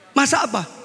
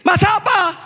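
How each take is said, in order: First: The question is said at normal, quiet volume. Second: The question is said even more loudly.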